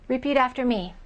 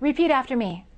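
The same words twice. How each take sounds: No difference in how they are said.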